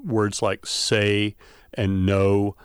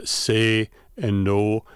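First: "say" and "no" with gliding American vowels, slowly; diphthongal vowels. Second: "say" and "no" with flat single vowels, slowly; steady Wisconsin vowels. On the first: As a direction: stretch the vowel in "say" and "no" so it changes quality. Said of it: "I say". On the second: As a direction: hold the vowel in "say" and "no" without gliding, Wisconsin style. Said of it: "Wisconsinites and Minnesotans will tend to say". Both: Shown as a demonstration.

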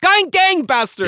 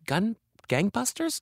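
First: Much higher and louder, slow, triumphant Gun gangbusters; triumphant exclaim. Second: Searching, rising on gangbusters; Gun, gangbusters said as a puzzled guess, rising; unsure question. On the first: Finally recalling the word for the host, triumphant exclaim. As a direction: shout Gun gangbusters as if you've found it. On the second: Groping for the word gangbusters, asking uncertainly. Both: Real, not acted. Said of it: "That's it".

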